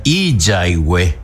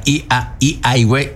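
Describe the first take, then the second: First: "i, ya, i, hue" with a Y consonant linking i to a; Y inserted. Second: "i, a, i, hue" with the vowels meeting, no Y between; wrong vowel join. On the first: Teacher showing students the correct joined form, Y inserted. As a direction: put a clear Y at the start of "ya". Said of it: "Y entra la J, o sea, la Y". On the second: Teacher showing students what results without the Y, vowels left bare. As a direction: say "i, a, i, hue" without any consonant glide. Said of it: "usted no va a poner i tampoco porque queda". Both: Shown as a demonstration.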